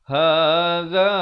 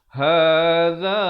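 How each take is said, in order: The two takes are said the same way.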